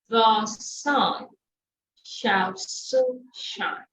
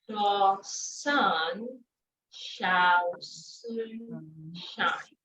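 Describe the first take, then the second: First: The phrase is said at a moderate speed. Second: The phrase is said slowly, word by word. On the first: "Then you take it faster" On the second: "Break it down"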